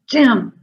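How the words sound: The word is said in an angry voice.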